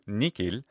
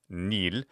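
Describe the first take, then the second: First: The word has a k sound in the middle. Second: The word has no middle consonant at all. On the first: "ecclesiastical pronunciation will often do nikil" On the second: "not to pronounce the H at all"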